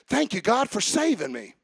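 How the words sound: It is said warmly, like talking to someone.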